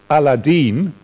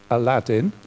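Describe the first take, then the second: First: It is said with an Arabic-style pronunciation. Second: It is said with the familiar English pronunciation.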